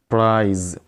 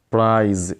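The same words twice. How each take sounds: The two takes are said the same way.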